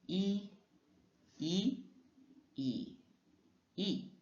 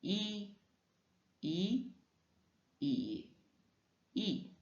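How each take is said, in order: No difference in how they are said.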